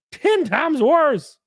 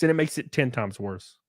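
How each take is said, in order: First: "Ten times worse" stretched out high and slow; exaggerated high, slow "Ten times worse"; emphatic repeat. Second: Said in the usual way. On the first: Real, not acted. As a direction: draw out each word of "Ten times worse", pitched way up.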